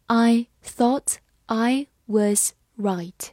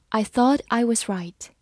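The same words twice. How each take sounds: First: Slow, word by word; slow reading. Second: Said in the usual way. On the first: Shown as a demonstration. Teacher reading slowly for students, slow and clear. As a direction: read it slowly for learners. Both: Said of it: "好，我们慢慢来读。".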